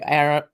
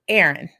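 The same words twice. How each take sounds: First: The name is said with a posh British accent. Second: The name is said with a Southern American accent. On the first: "I'm gonna try to be royal" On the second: "I'm probably giving that the real good Southern pronunciation of it"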